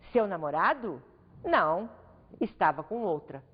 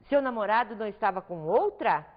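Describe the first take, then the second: First: It rises after the first phrase, then pauses and falls. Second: It is one whole sentence with a rising question tune. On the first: The boyfriend was with another woman. "a situação muda de sentido conforme a pontuação" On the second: The speaker doubts whether the boyfriend was with another woman. "agora de dúvida"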